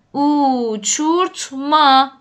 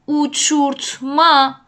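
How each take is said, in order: First: «اوچورتما» slowly, syllable by syllable; drawn-out word model. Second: «اوچورتما» said once in connected syllables; word model. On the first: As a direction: stretch the opening u of «اوچورتما». («اوچورتما» کشیده و هجا به هجا) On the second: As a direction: model «اوچورتما» clearly with a u onset. («اوچورتما» شمرده و پیوسته) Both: Shown as a demonstration.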